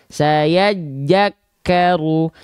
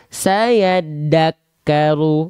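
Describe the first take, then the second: First: The second word starts with a j sound. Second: The second word starts with a d sound. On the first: "Banyak orang melafalkan saya jakaru" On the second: "tiga kesalahan besar"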